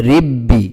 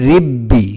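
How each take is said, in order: The two takes are said the same way.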